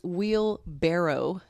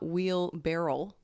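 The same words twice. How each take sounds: First: The word ends with a clear barrow sound. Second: The word ends with a barrel-like sound. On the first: The speaker calls it right. "but it's barrow" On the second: The speaker calls it wrong. "I've been saying wheelbarrow the whole time"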